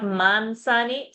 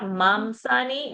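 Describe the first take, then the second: First: The nasal before s sounds like n. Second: The nasal before s sounds like m. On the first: This is a northern regional habit. "North India will try to say mansani" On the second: This is a southern regional habit. "South India will try to say mamsani"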